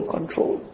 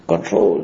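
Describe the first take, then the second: First: Breathy whispered command. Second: Low soft. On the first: Preacher urging listeners to restrain desire, whispered. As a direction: whisper the word like a plea. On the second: Preacher urging restraint. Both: Real, not acted.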